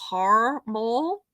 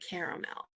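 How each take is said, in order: First: It is said the northern US way. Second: It is said the southern US way.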